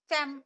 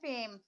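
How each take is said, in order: First: The vowel is clipped short. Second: The vowel is drawn out long. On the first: The speaker calls it wrong. "ऐसे नहीं पढ़ सकते ना" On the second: The speaker calls it right. "हम कैसे पढ़े?"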